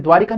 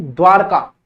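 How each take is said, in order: First: द्वारिका with an added i before ka; wrong pronunciation. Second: द्वारका as dvaar-kaa, no i; correct pronunciation. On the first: Teacher showing students the mistake, mispronounced demo. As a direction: say द्वारिका as dvaa-ri-kaa. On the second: Teacher correcting the city's name, careful pronunciation. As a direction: say द्वारका, r running straight into ka. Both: Shown as a demonstration. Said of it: "द्वारिका नहीं, द्वारका".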